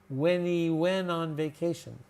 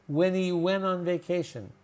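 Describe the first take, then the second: No difference in how they are said.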